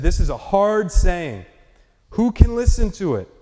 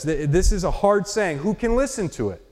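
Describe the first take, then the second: First: Grumbling disciples' complaint. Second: Said in the usual way. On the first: Retold or imitated. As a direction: let the complaint rise on "listen". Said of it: "they said". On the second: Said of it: "Look at this".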